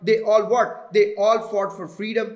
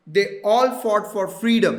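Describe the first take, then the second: First: 'They all' slow, with a pause before 'fought'; deliberate slow read with a beat before 'fought'; slow dash pause. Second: Spoken emphasis, punch 'freedom'; stressed spoken take. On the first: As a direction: spell it out slowly, as if marking a dash. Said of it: "तो मैंने ये previous सारे references को आगे relate किया". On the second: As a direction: stress on all and freedom, freedom louder. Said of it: "अगर मैं spoken में बात करूँगा तो मैं कहूँगा". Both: Shown as a demonstration.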